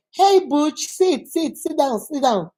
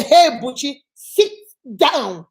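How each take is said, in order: First: Higher, easy repeated invitation to sit; friendly invitation. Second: Stern command. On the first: Host asking Butch to sit down, friendly. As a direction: urge them lightly to take a seat. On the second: Teacher showing Butchie ordered to sit down, sternly. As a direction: order them to sit, splitting the last two words. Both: Shown as a demonstration. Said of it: "So you see, so does it make a difference?".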